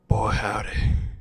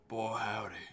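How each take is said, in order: First: It is said in a sensual, seductive manner. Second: It is said in a plain manner.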